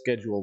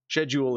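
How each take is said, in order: First: It is said in an American way. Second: It is said in a British way. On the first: "which is American" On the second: "is the British way of saying it"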